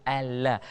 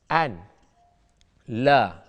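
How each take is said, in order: First: The n is merged into a doubled l sound. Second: The n is pronounced separately before the l. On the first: The speaker calls it right. "Ini sebutan yang betul" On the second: The speaker calls it wrong. "dia tak boleh sebut an"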